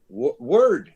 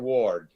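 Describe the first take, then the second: First: The vowel is an English-style vowel, not 'o'. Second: The vowel is a pure Spanish-style 'o'. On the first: The speaker calls it right. "pero en, en inglés no" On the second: The speaker calls it wrong. "para ella es word. ¿Por qué? Porque en español O se pronuncia O"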